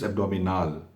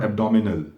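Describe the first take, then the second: First: It is pronounced the way German speakers say it. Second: It is pronounced the way English speakers say it. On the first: The speaker calls it right. "It's abdominal, like that" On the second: The speaker calls it wrong. "It's not abdominal"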